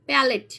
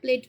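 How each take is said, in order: First: The word is said with two full syllables. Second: The word is squeezed into a single syllable. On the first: The speaker calls it right. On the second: The speaker calls it wrong.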